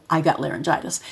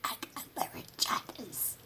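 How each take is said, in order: First: Said in the usual way. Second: Silent breathy whisper, no voice; mother faking laryngitis to a baby; fake laryngitis whisper. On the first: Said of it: "And I would, you know". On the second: Shown as a demonstration. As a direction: whisper it as if the voice is gone. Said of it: "I would say".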